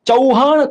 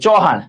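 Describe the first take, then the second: First: The first vowel glides from a to u. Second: The first vowel is one plain vowel sound. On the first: The speaker calls it right. "ચૌહાણ કોઈ બોલતું જ નથી" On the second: The speaker calls it wrong. "બધા ચૌહાણ જ કહે છે"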